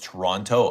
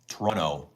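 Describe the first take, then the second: First: The second T is clearly pronounced. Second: The second T is dropped. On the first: The speaker is a tourist or visitor. The speaker calls it wrong. "people that pronounce Toronto aren't from here" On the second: The speaker is from the city. The speaker calls it right. "you don't pronounce the second T in Toronto"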